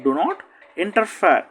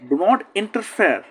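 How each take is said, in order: First: Said in the usual way. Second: Each word slow and deliberate; slow classroom model of the phrase; slow model reading. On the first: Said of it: "teacher repeats the phrase normally". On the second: Shown as a demonstration. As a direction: spell it out slowly for learners. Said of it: "teacher models the phrase slowly".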